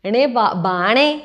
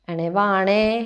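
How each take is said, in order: First: The second word begins with a b sound. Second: The second word begins with a v sound. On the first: This is how the local dialect calls someone. "ഞാൻ പറഞ്ഞത് എണേ ബാണേ" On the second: This is how outsiders would call someone. "നിങ്ങളിപ്പോൾ അങ്ങനെ ആയിരിക്കും വിളിക്കുക"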